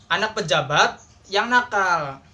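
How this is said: A pause comes after the second word. The official's child is the naughty one. "fokusnya itu ke anak pejabat"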